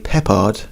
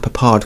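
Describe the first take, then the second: First: It is said in the British way. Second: It is said in the American way. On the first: The speaker calls it wrong. "The Brits tend to say Peppard" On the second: The speaker calls it right. "I am saying Peppard correctly"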